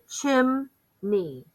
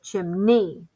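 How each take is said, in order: First: The stress is on the first syllable. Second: The stress is on the second syllable. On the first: "If we accent the first syllable" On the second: "So I would be accenting the second syllable"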